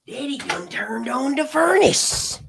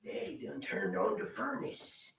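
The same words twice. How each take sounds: First: High, slow, full-voiced folksy drawl on Daddy done turned on the furnace; hammed-up folksy drawl. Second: High, slow, softer breathy whisper of Daddy done turned on the furnace; mock whisper. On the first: Speaker joking about the heat in the room, slow hammed-up drawl. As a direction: belt it out like a down-home joke. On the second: Speaker joking about the heat in the room, slow whisper. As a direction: hush it out, slow and teasing.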